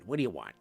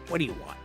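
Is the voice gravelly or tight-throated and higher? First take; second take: tight-throated; gravelly. First: It is a tight-throated voice with higher pitch. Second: It is a low gravelly New York voice.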